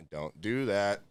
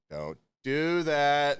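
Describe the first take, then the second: First: Said in the usual way. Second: Slow, stretched don't do that; drawn-out warning. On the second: Retold or imitated. Cook warning a new hire, slow and stretched. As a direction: spell out don't do that slowly. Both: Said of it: "I'm like".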